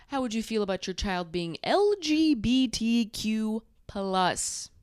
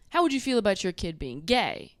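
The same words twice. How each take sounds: First: Careful, drawn-out "L G B T Q plus" with each letter spelled; gay man version. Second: Put-on plain, casual "How would you feel about your kid being gay?"; straight man version. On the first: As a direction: lay out "L G B T Q plus" letter by letter, primly. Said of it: "A gay man would say". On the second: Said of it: "A straight man would say". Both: Shown as a demonstration.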